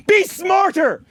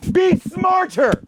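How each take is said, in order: First: Scolding the listeners, angry; angry order. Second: Yelling at critics, drawn out; slow shout. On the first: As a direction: snap it at them. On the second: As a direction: shout each word slowly. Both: Real, not acted. Scolding audience.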